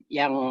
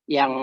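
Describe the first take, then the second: The two takes are said the same way.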